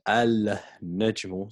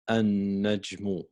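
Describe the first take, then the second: First: The L sound is pronounced before the N. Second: The L is dropped and the N is doubled. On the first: The speaker calls it wrong. "So we don't say al-najmu" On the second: The speaker calls it right. "So we just say an-najmu"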